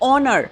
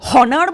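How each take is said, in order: First: The word begins with a vowel sound. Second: The word begins with an h sound. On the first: The speaker calls it right. "আমি বলছি অনার, অর্থাৎ ও এর সাউন্ডটা আগে আসে" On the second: The speaker calls it wrong. "আমি কি হনার বলছি? আমি হনার বলছি না তো"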